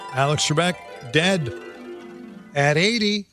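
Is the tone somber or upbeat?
upbeat. The tone is upbeat and cheerful. The speaker calls it wrong. "I said it with too much of an upbeat inflection"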